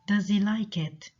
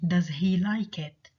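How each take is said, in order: First: Some sounds in the phrase are dropped. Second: Every sound in the phrase is pronounced.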